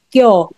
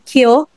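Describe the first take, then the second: First: The k is released with no puff of air. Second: The k is released with a puff of air. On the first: The speaker calls it right. "mas open siya... dapat wala ka na produce na air" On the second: The speaker calls it wrong. "hindi kyo"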